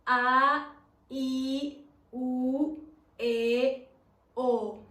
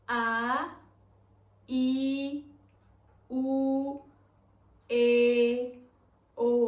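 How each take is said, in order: First: The vowels are said at a faster speed. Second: The vowels are said at medium speed.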